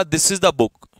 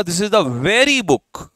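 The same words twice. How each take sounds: First: Said in the usual way. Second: "very" drawn out slowly and pushed a little louder; stress on very. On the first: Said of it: "और फिर मैंने कहा". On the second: Shown as a demonstration. Teacher demonstrating the emphasizing adjective, with "very" stressed slowly. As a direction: press on "very" to single out the book. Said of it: "ये emphasise कर रहा है very को".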